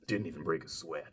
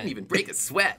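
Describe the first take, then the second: First: It is said in a different, American-dub voice. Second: It is said in a spunky anime-teen voice.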